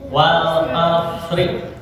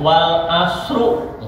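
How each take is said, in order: First: The word ends in the vowel i. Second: The word ends in the vowel u. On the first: The speaker calls it right. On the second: The speaker calls it wrong.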